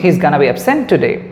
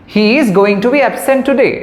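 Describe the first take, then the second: First: 'Going to' is reduced to 'gonna'. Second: 'Going to' is said in full. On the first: "বলছি" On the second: "সেটা না বলে"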